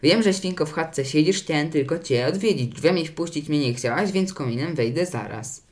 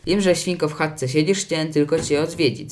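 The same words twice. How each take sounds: First: Lightly rasped, lilting wolf rhyme; hint of a hoarse wolf threat; raspy wolf. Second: Lightly crafty singsong rhyme; sly wolf. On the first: Wolf calls down the chimney, slightly raspy. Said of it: "dobiegł chrapliwy głos wilka". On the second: Wolf calls at the straw hut, slyly coaxing. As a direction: coax the piglet with mild cunning. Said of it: "zawołał podstępnie wilk". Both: A narrator's reading.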